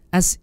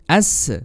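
First: The s sound is rushed and cut short. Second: The s sound ends with a bouncing release. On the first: "Contoh yang salah seperti ini. ... keburu-buru uh, berhenti sebelum memberikan sifat rokhawahnya" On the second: "memantulkan huruf sin ketika mati ya. ... Contoh yang salah seperti ini"

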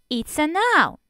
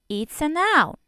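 No difference in how they are said.

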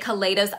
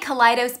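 First: It is pronounced unlike the start of kaleidoscope. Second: It is pronounced like the start of kaleidoscope. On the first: "but a lot of people say Kaleidos" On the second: "I say Kaleidos because I think kaleidoscope"

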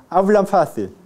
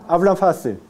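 The two takes are said the same way.

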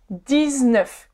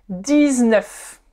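The two takes are said the same way.

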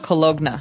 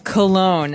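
First: A hard G sound is pronounced in the word. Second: No G sound is pronounced in the word. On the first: The speaker calls it wrong. "you don't really say the G. It's not cologne" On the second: The speaker calls it right. "It's cologne"

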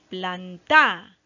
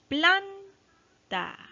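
First: The stress is on the last syllable. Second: The stress is on the first syllable. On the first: The speaker calls it wrong. "a ver si le damos la fuerza a ta" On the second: The speaker calls it right. "la que tiene el acento y dice planta. Ah, sí, se escucha bien"

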